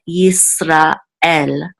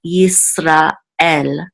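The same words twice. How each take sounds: First: A short break separates 'ra' from 'el'. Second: The same.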